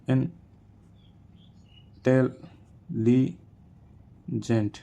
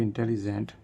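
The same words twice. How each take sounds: First: "intelligent" very slow, in four parts with long pauses; syllable by syllable. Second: Said in the usual way. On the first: Shown as a demonstration. Teacher showing four syllables, "intelligent" slowly syllable by syllable. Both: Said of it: "four syllable in intelligent".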